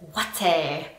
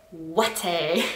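First: Said in the usual way. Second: "Ouaté" said slowly and low, savouring the odd sound; mock disdainful "Ouaté"; lingering ouaté. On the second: Shown as a demonstration. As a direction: draw out "Ouaté" with distaste. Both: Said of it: "I just don't like the sound of it".

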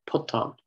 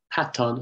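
First: Puton with U as in "put"; puton, first vowel U, not A; changed form. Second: Paton with an open A; paton, first vowel A, not U; original form. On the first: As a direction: say puton as "PUUT-awn". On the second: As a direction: say paton as "PAT-awn". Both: Shown as a demonstration. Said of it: "paton has become puton".

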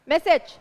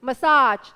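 First: MESSAGE stressed on the first syllable; "message" ending in a short, light "-sij"; clear word demo. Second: "massage" with a loud, long "-SAAJ"; "massage" said muh-SAAJ, ending drawn out; contrasting word demo. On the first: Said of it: "จะมีอีกคำหนึ่ง ที่มันใกล้กัน". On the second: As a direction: lean hard on the second syllable of "massage". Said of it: "ที่มันใกล้กัน อ่ะ อันนี้เป็นคำศัพท์". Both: Shown as a demonstration.

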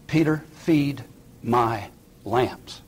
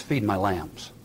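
First: "Peter, feed my lambs" very slow, word by word; measured, deliberate commission, a long gap between "feed", "my", "lambs"; solemn charge. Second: Said in the usual way. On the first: Acted. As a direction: set "feed", "my" and "lambs" apart with a pause after each. Jesus's reply repeated for weight.

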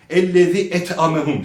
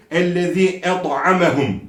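First: "et'amehum" with a plain thin t; wrong light t. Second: "et'amehum" with a heavy, thick ط; emphatic t. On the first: Quran teacher repeating the mistake, thin t. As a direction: say "et'amehum" without thickening the t. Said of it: "Bu da yanlıştır". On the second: Quran teacher modelling the letter, heavy t. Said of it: "Da harfidir". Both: Shown as a demonstration.

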